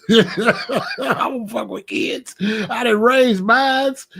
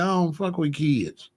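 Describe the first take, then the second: First: Slow, drawn-out through laughter; laughing repeat. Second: Said in the usual way. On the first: Real, not acted. Grandpa repeats it to the camera, laughing slowly.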